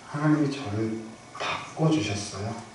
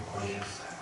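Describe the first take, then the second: First: Said in the usual way. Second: Much softer, hushed repeat; 바꿔주셨어요 repeated quietly, almost breathed; soft echo. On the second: Real, not acted. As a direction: let 바꿔주셨어요 fall to a near whisper.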